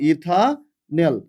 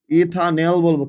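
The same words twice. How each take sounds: First: ethanal stretched slowly, each syllable held; teacher spelling out ethanal slowly; slow and drawn out. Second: Said in the usual way. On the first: Shown as a demonstration. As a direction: drag out ethanal for the class to copy. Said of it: "কি বলবো?". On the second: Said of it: "তাহলে এটাকে কি বলবো আমি?".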